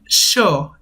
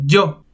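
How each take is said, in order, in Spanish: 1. La primera consonante tiene una fricción siseante fuerte. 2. La primera consonante es un sonido y normal. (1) "con una fricción especial" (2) "en lugar de"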